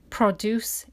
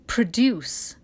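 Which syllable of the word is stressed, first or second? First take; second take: first; second. First: The stress is on the first syllable. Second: The stress is on the second syllable. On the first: It is the noun meaning farm goods. "Produce is the noun" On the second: It is the verb meaning to make something. "the stress on the second syllable because it's a verb"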